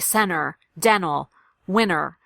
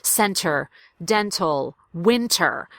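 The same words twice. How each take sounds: First: The T sound is dropped after the N. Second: The T sound is clearly pronounced after the N. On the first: The speaker calls it wrong. "You'll hear people say" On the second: The speaker calls it right. "pronounce the T"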